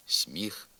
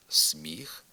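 First: «сміх» with с palatalized before мі; softened с. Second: «сміх» with с hard before мі; as written. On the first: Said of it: "а вимовляємо". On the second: Teacher reading the spelling, hard с in «сміх». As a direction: say «сміх» with an unsoftened с. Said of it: "Пишемо". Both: Shown as a demonstration.

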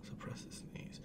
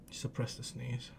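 First: Barely audible voiceless whisper. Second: Very soft, low self-instruction; hushed. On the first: Holding back a sneeze, whispered. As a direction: whisper it to yourself. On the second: Holding back a sneeze, hushed. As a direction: murmur it low to yourself. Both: Real, not acted.

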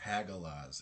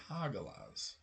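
First: "Hagalaz" with a flat A as in hag; wrong pronunciation. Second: "Hagalaz" with an open AH, HAH-ga-lahz; corrected pronunciation. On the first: Player voicing the rune name the mistaken way, short-A "Hagalaz". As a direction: say "Hagalaz" starting like the word hag. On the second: Player correcting the rune name, slow broad-A "Hagalaz". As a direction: draw out "Hagalaz" slowly, starting HAH as in Häagen-Dazs. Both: Shown as a demonstration. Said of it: "It's not Hagalaz, it's Hagalaz".

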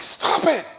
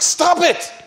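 First: High, a bit louder stop; mock outburst, lighter this time; exasperated plea. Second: High, loud exasperated cry of stop; mock panic, throwing up his hands; freaking out. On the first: Scholar again pleading with the woman to stop, high mock cry. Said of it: "And he says, like". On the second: Scholar begging the Quran-quoting woman to stop, high loud cry. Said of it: "He, he started freaking out".

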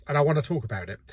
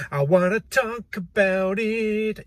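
First: Said in the usual way. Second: Higher and slow, each word stretched out; I wanna talk about it, sung out higher and slow; drawn-out insistence. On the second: Acted. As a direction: drag it out like a whiny plea. Repeats the line for emphasis.

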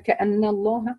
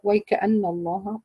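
First: كأن الله starting straight on the kaf, no و and no ي; Al-Kisai's start. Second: ويكأن الله said in full, the وي kept on, slightly slow; whole word. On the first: Teacher showing Al-Kisai's way of starting the phrase. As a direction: start the phrase at كأن, dropping the ويـ entirely. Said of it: "البدء عنده بقولك". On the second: Teacher giving the correct full-word start. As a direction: keep ويكأن whole from its first letter. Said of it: "والصحيح الوقف على الكلمة بأسرها". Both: Shown as a demonstration.

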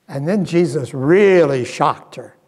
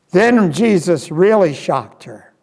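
First: Said in the usual way. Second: Then hit harder on the repeat; stress on Then. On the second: Acted. Preacher repeats for the congregation, stressing Then.

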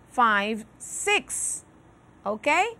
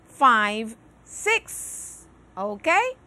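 Both takes have the same delivery.

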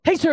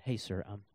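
First: High, loud, blurted-out call; hammed-up overeager rush; too hurried. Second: Low, soft, measured approach; hesitant, toned-down politeness; slowed down. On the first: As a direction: blurt it at a stranger, far too eagerly. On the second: Acted. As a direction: rein it in and address him calmly. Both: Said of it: "talk a little bit slower".

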